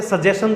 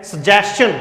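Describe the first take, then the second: First: सजेशन with a plain s-sound, sə-JE-shən; wrong pronunciation. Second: सजेशन ending in chən, sə-JES-chən; correct pronunciation. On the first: Teacher showing the wrong way first, shən ending. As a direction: say सजेशन as shən, the common mistake. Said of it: "wrong pronunciation इसका". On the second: Teacher giving the correct form, chən ending. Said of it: "इसका correct pronunciation है". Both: Shown as a demonstration.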